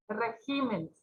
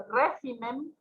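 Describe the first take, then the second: First: "Regímenes" stressed on GÍ; stress moved to GÍ. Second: "régimen" stressed on RÉ; stress on first syllable. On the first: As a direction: move the stress in "Regímenes" to the second syllable. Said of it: "Acá se mueve su tilde". ("Regímenes" con acento en GÍ) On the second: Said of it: "lleva tilde porque es esdrújula". ("régimen" con acento en RÉ) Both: Shown as a demonstration.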